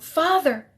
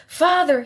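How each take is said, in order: First: Wailing. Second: Put-on high, loud child's wail of terror. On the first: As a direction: keep wailing, slightly weaker. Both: A narrator's reading. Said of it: "he wailed".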